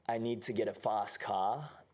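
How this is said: It is spoken in an Australian accent. "avec l'accent australien"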